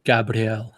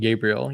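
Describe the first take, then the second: First: The name has a French-style pronunciation. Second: The name has a plain English pronunciation. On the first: "Frenchified his name" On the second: "instead of saying Gabriel"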